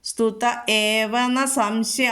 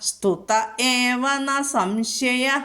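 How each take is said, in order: First: The phrase ends on a plain vowel. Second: The phrase ends with a breathy h sound.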